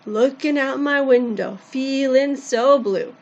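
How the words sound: It is said with emotion and swing.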